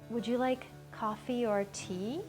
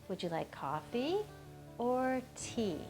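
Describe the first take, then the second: First: The voice stays fairly level instead of falling on tea. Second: The voice rises on coffee and falls on tea. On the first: "do you notice how I went kind of straight?" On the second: "I did a kind of upward uh, intonation on coffee and a downward intonation on tea"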